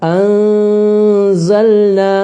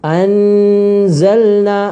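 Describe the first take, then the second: First: The n is hidden with a nasal hum. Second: The n is pronounced fully and clearly. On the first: The speaker calls it right. "നൂനിനെ മറച്ചു വെക്കുകയും ഗുന്നത്ത് ചെയ്യുകയും വേണം" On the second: The speaker calls it wrong. "നൂന് വെളിവാകുന്ന രൂപത്തിൽ പാരായണം ചെയ്യരുത്"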